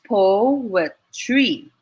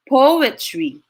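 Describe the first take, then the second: First: "poetry" drawn out in three slow beats; syllable by syllable. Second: Said in the usual way. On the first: Shown as a demonstration. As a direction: count out "poetry" as po, e, try with pauses. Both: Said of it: "It's three syllables as well".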